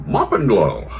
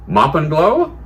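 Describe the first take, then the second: First: "Mop and glow" with a long falling tune; answering echo. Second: High, loud "Mop and glow", rising at the end; questioning rise. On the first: Cleaner hands over the product, "Mop and glow" falling in answer. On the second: Surgeon asks cleaner for cleaning product, "Mop and glow" rising high. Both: Acted.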